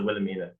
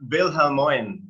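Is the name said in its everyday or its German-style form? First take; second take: everyday; German. First: The name is said in an everyday English pronunciation. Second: The name is said in a German-style pronunciation. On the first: This is the form people commonly use. "everyone that knows her calls her Wilhelmina" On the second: This is the precise original form of the name. "It's pronounced Wilhelmoin, to be precise. Okay. It's German"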